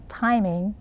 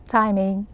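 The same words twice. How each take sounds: The two takes are said the same way.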